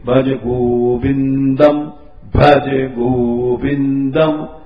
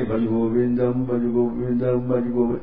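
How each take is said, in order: First: It is said slowly and carefully. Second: It is said quickly and hurriedly.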